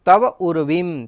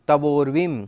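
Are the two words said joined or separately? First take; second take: separately; joined. First: The two words are said separately. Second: The two words merge into one word. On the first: These are the words in their separate form. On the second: This is the form used in the verse.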